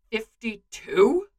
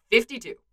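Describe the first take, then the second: First: Slow, stunned question rising at the end; gaping disbelief. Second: Said in the usual way. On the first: A narrator's reading. Bucky echoing the number Clint gave, gaping in disbelief. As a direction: echo it slowly in disbelief. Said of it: "Bucky gapes, brain stuttering".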